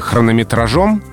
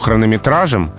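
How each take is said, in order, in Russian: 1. Ударение падает на последний слог. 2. Ударение падает на средний слог. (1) "очень много слогов перед ударным" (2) "где ударение поближе к середине"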